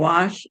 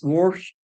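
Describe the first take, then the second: First: It is said plainly without an r sound. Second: It is said with an added r sound.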